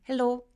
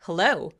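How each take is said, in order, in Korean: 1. 강한 강세 없이 평평하게 말합니다. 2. 강하고 무겁게 강세를 줘서 말합니다. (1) "그냥 hello 이러지 말고" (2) "굉장히 세게 강세를 줘서"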